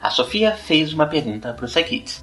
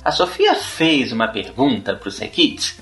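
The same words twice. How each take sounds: First: Said in the usual way. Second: Put-on "A Sofia fez uma pergunta pro Psy Kids?" asked as a question, rising at the end; question tune. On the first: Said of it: "eu disse exatamente a mesma coisa nas duas frases". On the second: Shown as a demonstration. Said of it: "qual delas é? É a segunda".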